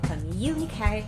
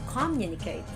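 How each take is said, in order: First: The stress is on the second syllable. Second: The stress is on the first syllable. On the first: The speaker calls it right. "On the second syllable, you make it higher and longer" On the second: The speaker calls it wrong. "it's not communicate on the first syllable"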